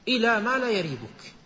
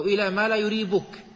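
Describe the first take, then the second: First: "يريبك" pronounced "yaribuk", fatha on the first letter; فتح الياء. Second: "يريبك" pronounced "yuribuk", damma on the first letter; ضم الياء. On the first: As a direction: open "يريبك" with a short "a" after the y. ("يريبك" بياء مفتوحة) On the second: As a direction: open "يريبك" with a short "u" after the y. ("يريبك" بياء مضمومة) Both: Shown as a demonstration. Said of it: "هو بفتح الياء وضمها".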